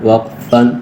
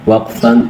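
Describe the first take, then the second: No difference in how they are said.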